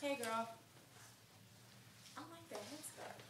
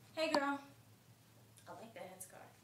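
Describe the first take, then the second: First: It is said with surprise, as if just noticing. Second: It is said plainly, without surprise.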